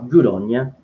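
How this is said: It is said in a sarcastic, dismissive tone. The speaker disapproves of what was done. "If someone does something that you don't like, it's like"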